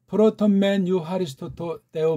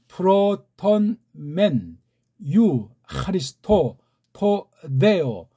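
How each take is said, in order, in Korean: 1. 단어를 빠르게, 붙여서 읽습니다. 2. 단어를 하나씩 천천히 읽습니다.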